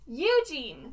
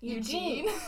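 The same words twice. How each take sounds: First: The stress is on the first syllable. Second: The stress is on the second syllable. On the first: The speaker calls it wrong. "My least favorite thing is how she says" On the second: The speaker calls it right. "But instead you say Eugene. ... inflection supposed to be on Gene?"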